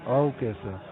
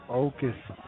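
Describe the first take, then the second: The two takes are said the same way.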